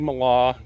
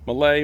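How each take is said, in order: First: The name is said the German way. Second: The name is said the American way. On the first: "the Germans per- prefer Mala" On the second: "here in the United States, a lot of people say Malay"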